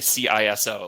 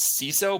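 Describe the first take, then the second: First: Each letter is said separately. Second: It is said as a single word. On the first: "they just will spell it out" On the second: "The predominant North American way"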